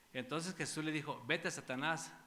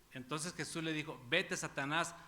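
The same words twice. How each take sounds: Both takes have the same delivery.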